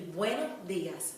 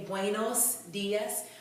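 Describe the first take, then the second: First: The S sounds are cut short and softened. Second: The S sounds are pronounced strongly and clearly. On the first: The speaker calls it right. "We're going to sort of cut that S off" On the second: The speaker calls it wrong. "The S is not as pronounced as it is in English, so we're not going to say"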